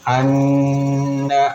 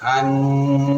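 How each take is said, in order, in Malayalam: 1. n ചുരുക്കമായാണ്, മൂക്കിലെ മുഴക്കമില്ലാതെ. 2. n മൂക്കിലെ മുഴക്കത്തോടെ നീട്ടിയാണ് പറയുന്നത്. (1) "അന്ന എന്നല്ല" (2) "അവിടെ മണിച്ചിട്ടാണ്"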